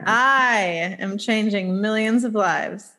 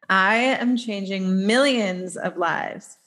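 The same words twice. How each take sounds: First: The stress is on the word I. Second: The stress is on the word millions.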